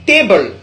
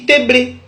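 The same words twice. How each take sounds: First: "table" as té-bol; English pronunciation. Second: "tébré" ending on an open é; Godié pronunciation. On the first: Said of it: "du terme anglais". (« table » à l'anglaise, prononcé té-bol) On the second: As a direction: say té-blé, both vowels clear. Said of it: "en gaudier, se dit". (« tébré » à la godié, prononcé té-blé) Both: Shown as a demonstration.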